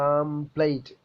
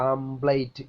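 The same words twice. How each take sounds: Both takes have the same delivery.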